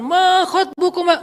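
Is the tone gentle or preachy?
preachy. It is said in a stern preacher's tone.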